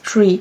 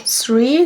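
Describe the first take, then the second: First: The word begins with a plain t sound. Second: The word begins with a th sound. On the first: "they pronounced as tree" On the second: "the word three"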